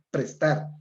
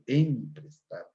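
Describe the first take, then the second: First: The word begins directly with the 'p' sound. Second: The word begins with an added 'em' sound. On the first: The speaker calls it right. "lo normal es prestar" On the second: The speaker calls it wrong. "Aquí vemos la prótesis claramente"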